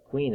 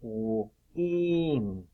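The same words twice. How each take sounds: First: Said in the usual way. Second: "Queen" broken into k, w, long een; sounded out. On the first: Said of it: "that's a long E sound". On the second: Shown as a demonstration. Teacher testing pupils for short E, "Queen" sounded out. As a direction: draw "Queen" out slowly, sound by sound. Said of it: "Do you hear the short E sound".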